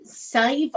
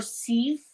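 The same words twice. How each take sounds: First: "Sieve" with a long "eye" vowel, like "five"; alternative name pronunciation. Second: "Sieve" with a long "ee" vowel; alternative name pronunciation. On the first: Streamer trying out a viewer's name, "Sieve" said as "syve". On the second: Streamer trying out a viewer's name, "Sieve" said as "seev". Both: Shown as a demonstration. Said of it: "how to pronounce your name".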